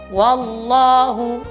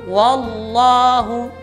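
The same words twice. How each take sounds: Both takes have the same delivery.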